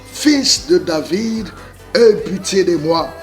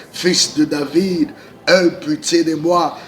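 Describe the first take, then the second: The two takes are said the same way.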